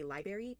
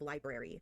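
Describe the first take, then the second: First: The R after the B is dropped. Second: The R after the B is pronounced. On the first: The speaker calls it wrong. "people who say library instead of library" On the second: The speaker calls it right. "it's spelled with the R in front of the A"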